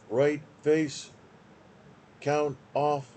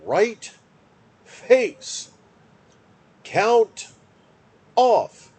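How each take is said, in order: First: The command is said on one flat pitch. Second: The command is said with clear pitch changes. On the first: The speaker calls it wrong. "you're very monotone. It's right face, count off. It's the same" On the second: The speaker calls it right. "So it should be right face, count off"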